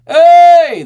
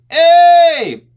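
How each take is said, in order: First: Sung, loud, very high open hey; sung, open the throat and belt it out; sung, wide, powerful belted note. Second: Sung, loud, very high narrowed hey; sung, narrow the throat and belt it; sung, tight, closed belted note. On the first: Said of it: "so the open belt". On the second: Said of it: "The closed". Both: Shown as a demonstration.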